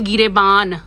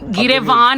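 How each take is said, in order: First: The middle consonant is a b sound. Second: The middle consonant is a v sound. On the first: The speaker calls it right. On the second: The speaker calls it wrong. "गिरेवान नहीं"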